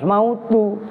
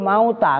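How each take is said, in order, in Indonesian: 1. Kata ini berakhir dengan vokal 'u'. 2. Kata ini berakhir dengan vokal 'a'. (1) "Nah itu robah harus mautu" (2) "Itu kan kitab kalian al mautah kan nasab"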